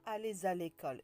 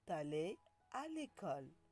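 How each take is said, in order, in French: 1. La consonne finale se lie au mot suivant. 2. Les mots restent séparés, sans consonne de liaison. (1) "On ne dit pas" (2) "On dit"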